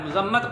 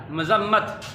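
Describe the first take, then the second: First: "मजम्मत" with a, the common way; the wrong "मजम्मत"; teacher quotes the wrong "मजम्मत"; wrong pronunciation. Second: "मजम्मत" with u on the first sound, muzammat; teacher models "मजम्मत"; correct pronunciation. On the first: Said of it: "गलत तौर पर pronounce". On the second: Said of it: "मीम के ऊपर पेश". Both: Shown as a demonstration.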